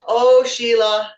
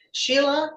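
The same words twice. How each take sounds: First: Slow, louder mock-scolding oh Sheila; long teasing sigh of the name; drawn-out teasing oh Sheila. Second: Said in the usual way. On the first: Real, not acted. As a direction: stretch it out like a playful scold. Teasing the speaker's switch.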